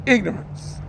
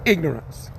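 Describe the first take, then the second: First: Said in the usual way. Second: Dramatic title. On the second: Shown as a demonstration. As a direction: announce ignorance in a deep, ominous tone. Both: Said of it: "I'm gonna do one called".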